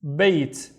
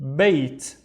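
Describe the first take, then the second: The two takes are said the same way.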